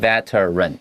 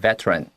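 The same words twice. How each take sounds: First: The word is said in its full dictionary form. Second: The word is said quickly with a reduced syllable. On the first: "你去查字典，它会是 veteran" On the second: "在念快一点的时候，就会念 veteran"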